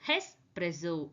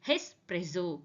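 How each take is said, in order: No difference in how they are said.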